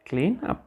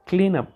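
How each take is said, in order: First: Clean up. rising at the end; questioning. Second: Clean up. with stress on clean, falling; firm command. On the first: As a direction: ask it, rising tune on up. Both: Shown as a demonstration.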